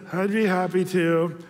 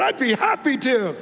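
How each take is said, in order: First: The phrase is said in a flat, reluctant tone. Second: The phrase is said in a bright, excited tone. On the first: The speaker does not really want to do it. The speaker calls it wrong. "if we didn't say it that way, if we said" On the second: The speaker is eager to do it. The speaker calls it right. "try to convince him that we were really excited"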